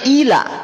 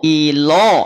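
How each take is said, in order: First: The lam is light, vowel sounding like a. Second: The lam is heavy, vowel sounding like o. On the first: The speaker calls it right. "Adanya ila" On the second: The speaker calls it wrong. "Jadi ilo kan bukan ila"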